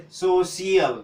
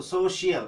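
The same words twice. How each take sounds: First: सोशियल broken up as "so-si-yal"; सोशियल as slow "so-siyal", s not sh; dental s. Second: सोशियल as "so-shi-yal"; सोशियल with sh replacing the plain s; palatal sh. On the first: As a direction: say सोशियल slowly with a plain s in the middle. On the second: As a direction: say सोशियल with a sh in the middle. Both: Shown as a demonstration. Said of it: "तालव्य सौ".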